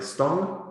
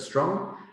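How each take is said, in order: First: The r is left out of the cluster. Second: The full cluster is said with no change.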